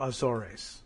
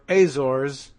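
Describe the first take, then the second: First: The word is said with three syllables. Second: The word is said with two syllables. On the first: The speaker calls it wrong. "and not a third syllable" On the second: The speaker calls it right. "it's two syllables anyway"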